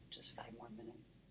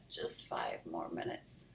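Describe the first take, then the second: First: Hushed aside whisper. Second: Slow drowsy whisper; sleepy whisper. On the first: Real, not acted. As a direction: whisper it to the listener. Reader repeats to child. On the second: A narrator's reading. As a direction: mumble it half asleep. Sleepy kid in bed.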